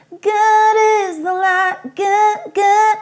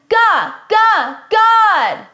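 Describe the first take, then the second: First: "God" sung pinched, closed up, higher; pinched and tense. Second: "God" hit hard on the G, loud and high; gripped G. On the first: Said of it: "it gets all pinched and tense". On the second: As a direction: punch the G of "God". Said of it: "grip in my voice". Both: Shown as a demonstration.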